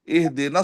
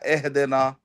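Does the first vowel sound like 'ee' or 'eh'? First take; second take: ee; eh. First: The first vowel is a short 'i' sound. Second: The first vowel is an open 'e' sound. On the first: The speaker calls it right. "इह देना सिरातल मुस्तकीम है" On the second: The speaker calls it wrong. "या एह देना"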